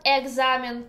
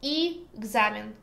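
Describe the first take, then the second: First: Examen with a clear open "eh" at the start; as spelled. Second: Examen with the first vowel turned to "ee"; as pronounced. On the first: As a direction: say examen as "eh-GZA-men", true to the spelling. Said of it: "we write e at the beginning". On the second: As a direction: say examen as "ee-GZA-men". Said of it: "but pronounce". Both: Shown as a demonstration.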